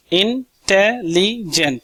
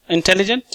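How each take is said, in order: First: intelligent slowed into four even beats; teacher sounding out intelligent slowly; syllable by syllable. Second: Said in the usual way. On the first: Shown as a demonstration. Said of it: "four sounds". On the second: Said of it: "जैसे मैं clap कर कर बताऊंगा आपको".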